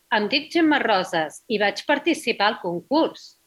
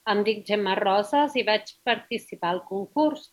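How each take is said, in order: First: It is read with intonation and pauses. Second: It is read flatly, with no pauses. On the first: The speaker calls it right. "Y ahora sí poniendo pausas" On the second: The speaker calls it wrong. "he dado así una voz plana, no he sonreído, no me he parado y no he hecho pausas"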